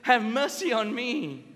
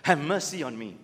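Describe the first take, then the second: First: Higher, slow, heartfelt plea; earnest plea. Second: A hint of a hammed-up plea to a GP, lower; mock plea to the doctor. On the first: Retold or imitated. Blind beggar pleading to Jesus for healing, earnest slow cry. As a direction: beg slowly for real mercy. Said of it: "he says". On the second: Faking patient begging the GP for sympathy, mock plea. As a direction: play the patient milking it for the doctor. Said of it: "said to your G P".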